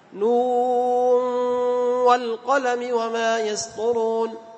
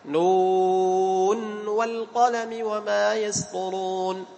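First: The n before wa merges into the w. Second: The n before wa is clearly sounded. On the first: "الإدغام" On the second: "كيف الإظهار؟"

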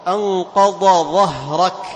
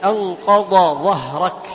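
First: The two consonants are pronounced separately. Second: The same.

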